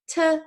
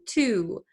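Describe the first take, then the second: First: The word is cut to a weak, short sound. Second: The word has a full, strongly rounded oo vowel. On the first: "when we talk fast, we're not going to use that much power" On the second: "when we say ooh, we need a lot of muscle power"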